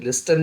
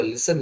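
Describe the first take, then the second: First: "लिस्टन" with a hard T after S; t sounded. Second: "लिसन" with S going straight to the vowel; silent t. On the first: Teacher warning against a reading, T sounded in "लिस्टन". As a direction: say "लिस्टन", pronouncing the T. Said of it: "लिस्टन ना हो के". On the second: Teacher giving the correct reading, "लिसन" with silent T. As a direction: say "लिसन" without any T. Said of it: "होगा लिसन". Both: Shown as a demonstration.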